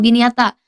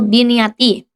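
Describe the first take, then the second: First: The word ends with an a vowel. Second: The word ends with an i vowel. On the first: The speaker calls it wrong. "atau biniyata" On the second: The speaker calls it right. "tapi dibacanya itu biniyati"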